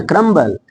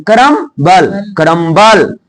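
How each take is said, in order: First: क्रम्बल said softly and compactly, short last syllable; no stress. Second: करम्बल pulled apart into ka-ram-baal, heavy last syllable; drawn-out, overstressed. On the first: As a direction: let क्रम्बल fall away lightly without force. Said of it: "जोर नहीं देना". (क्रम्बल, बिना ज़ोर दिए) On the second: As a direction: lean hard on a stretched बल in करम्बल. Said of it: "कई सारे लोग खींच देते हैं". (करम्बल को खींचकर, बल पर ज़ोर) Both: Shown as a demonstration.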